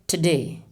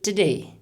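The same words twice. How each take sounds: First: The first vowel is dropped between t and d. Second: The same.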